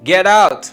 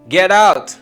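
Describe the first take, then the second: First: It is said with strong feeling. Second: It is said with strong feeling.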